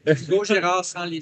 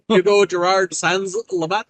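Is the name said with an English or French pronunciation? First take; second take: French; English. First: The name is said with French pronunciation. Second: The name is said with English pronunciation. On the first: "any word that can sound French will immediately go to French for me" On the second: "to pronounce it in English, like if you'd read it in English"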